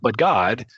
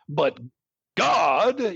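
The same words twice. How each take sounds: First: The phrase gets light, secondary emphasis. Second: The phrase gets strong, dramatic emphasis. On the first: The text simply switches to a new subject. The speaker calls it right. "Secondary intonation like" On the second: The subject is marked as the most important point. The speaker calls it wrong. "not "but God," ... unless we're doing it overly dramatically"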